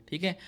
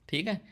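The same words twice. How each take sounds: Both takes have the same delivery.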